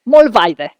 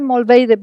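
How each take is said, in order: First: The name is said with German vowel sounds. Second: The name is said with Spanish vowel sounds. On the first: The speaker calls it right. "So believe her. Mollweide, right?" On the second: The speaker calls it wrong. "I always say Mollweide, but this is my Spanish accent"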